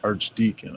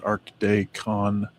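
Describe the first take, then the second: First: Archdeacon repeated as ard-TEE-kun, softer; corrected pronunciation. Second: Archdeacon slowly sounded out as arch-day-con; mispronounced. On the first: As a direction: Archdeacon said quietly as ar-dee-kun. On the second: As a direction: Archdeacon said slowly as ark-DAY-kon with a hard k. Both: Shown as a demonstration. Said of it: "No, Archdeacon".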